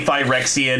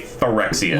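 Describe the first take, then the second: First: The word is pronounced in a refined-sounding way. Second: The word is pronounced in a folksy, rustic way. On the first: The speaker sounds sophisticated. "Do you want to be fancy? You say Phyrexian" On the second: The speaker sounds unsophisticated. "If you're a hillbilly, you say Phyrexian"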